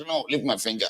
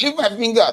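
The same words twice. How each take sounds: First: "No, leave my finger" said much softer, under the breath; muttered protest. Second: "Leave my finger" much higher and sharp; shouted protest. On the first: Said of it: "I was like". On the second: Voter yelling "Leave my finger" at the spirit, high and sharp. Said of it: "I said". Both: Retold or imitated.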